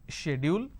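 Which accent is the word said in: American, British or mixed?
British. It is said with a British pronunciation. "the British pronunciation is schedule"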